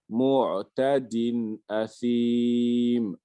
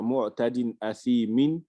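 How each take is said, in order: First: The final m is said with no vowel after it. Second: The final m is followed by a short in. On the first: The reader stops on this word. "quand je m'arrête sur un mot, je vais mettre soukoun" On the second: The reading continues without stopping. "au lieu de dire"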